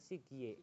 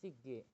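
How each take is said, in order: First: The second syllable has a ye glide vowel. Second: The second syllable has a plain e vowel. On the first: This is how it is less often said. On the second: This is how it is more often said. "lebih sering dibacanya"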